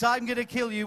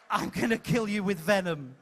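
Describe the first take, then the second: First: "I'm gonna kill you" said with menace; with venom. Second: Wrong take, laughing through the line. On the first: Host coaching the villain, a touch of venom. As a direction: spit the threat. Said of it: "which you say with venom in your voice". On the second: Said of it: "It's not". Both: Shown as a demonstration.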